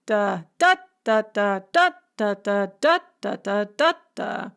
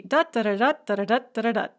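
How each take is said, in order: First: Sing-song da with the middle beat hit hard; amphibrach rhythm. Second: Da da da hummed fast, first beat strong; strong-weak-weak humming rhythm; dactyl rhythm. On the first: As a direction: hum weak-strong-weak, punching the middle da. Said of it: "start with an unstressed syllable". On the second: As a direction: hum a quick falling triple beat. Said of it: "a dactyl is gonna be". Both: Shown as a demonstration.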